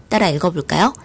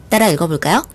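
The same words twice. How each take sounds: The two takes are said the same way.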